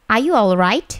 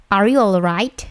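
Both takes have the same delivery.

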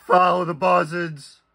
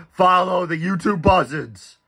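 First: Lightly voiced sinister cult leader; creepy cult leader voice. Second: Higher, eerie preacher tone; lightly voiced sinister cult leader; creepy cult leader voice. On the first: Bray Wyatt catchphrase in creepy voice. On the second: Repeating Bray Wyatt catchphrase.

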